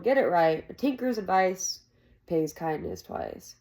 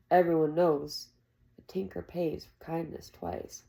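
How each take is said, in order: First: Firm, grumbling correction. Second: Said in the usual way. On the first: Acted. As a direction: set the saying straight. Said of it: "Jake grumbled".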